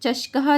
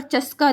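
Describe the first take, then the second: First: चष्कः with a retroflex "sh" and a breathy echo "kaha" at the end; Sanskrit pronunciation. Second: चस्का said as plain Hindi "chaska", no visarga at the end; Hindi-style reading. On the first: Teacher correcting students to the proper Sanskrit चष्कः. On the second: Teacher to students, first reading चस्का the Hindi way. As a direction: read चस्का the everyday Hindi way, ending on a bare "ka". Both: Shown as a demonstration. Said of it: "चष्कः दिया हुआ है ना".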